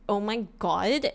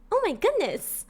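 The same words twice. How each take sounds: First: Put-on slow, drawn-out valley-girl delivery; California girl. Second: High, sweet and innocent; innocent girl-next-door. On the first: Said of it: "What's the difference between the two?". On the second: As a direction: pitch it up like a pop ingénue. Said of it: "One is innocent and one is bratty". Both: Shown as a demonstration.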